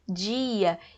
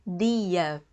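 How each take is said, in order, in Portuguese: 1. O d soa como um 'dj' suave. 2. O d soa como um d simples. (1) "Isso acontece muito no sotaque do Rio de Janeiro" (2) "o pessoal com aquele sotaque bonitinho do Nordeste fala o quê?"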